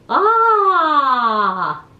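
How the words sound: The vowel sounds placed forward in the mouth. The speaker calls it right. "You want the sound to come forward in the room"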